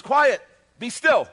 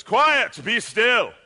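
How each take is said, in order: First: Loud, high, drawn-out order; woken sleeper's command. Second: Booming, high theatrical command; thespian voice. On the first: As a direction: call it out slowly over a storm. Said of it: "He's not waking up". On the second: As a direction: declaim it loudly like a stage actor. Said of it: "using the thespian voice". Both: Acted.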